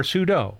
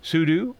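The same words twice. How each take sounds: First: Second sudo rhymes with judo; sudo as soo-doh. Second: First sudo ends like "do"; sudo as soo-doo. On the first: Offering listeners either option, sudo said soo-doh. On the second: Offering listeners either option, sudo said soo-doo. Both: Shown as a demonstration. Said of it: "regardless of how you pronounce it".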